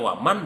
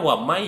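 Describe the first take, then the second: First: The n sound is clearly pronounced. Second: The n sound merges into the following y. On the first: This is how the phrase is originally written. "yang asalnya waman" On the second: This is how the phrase is actually recited. "Jadi suaranya wamai"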